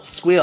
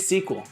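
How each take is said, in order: First: It is pronounced as one syllable, squeal. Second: It is pronounced as two syllables, sequel. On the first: "I know people who pronounce S Q L like squeal" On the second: "Or do I say sequel?"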